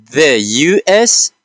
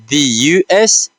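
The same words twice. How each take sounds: First: "the U S" slowly, with "the" as "thuh"; measured "thuh U S", letters said separately; first pronunciation. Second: "the U S" with "the" as "thee"; careful "thee U S", letters said separately; alternative pronunciation. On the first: Teacher modelling a country name for learners, "the" as "thuh". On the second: Teacher offering learners another way, "the" as "thee". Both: Shown as a demonstration. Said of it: "or you can say".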